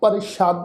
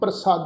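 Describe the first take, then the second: First: The consonant after pr is an sh. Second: The consonant after pr is a plain s. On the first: The speaker calls it wrong. "ਬਿੰਦੀ ਲਗਾ ਕੇ ਅਸੀਂ ਪਾਠ ਉਚਾਰਨ ਨਹੀਂ ਕਰਨਾ" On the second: The speaker calls it right. "ਇਸ ਸ਼ਬਦ ਦਾ ਉਚਾਰਨ ਕਰਾਂਗੇ"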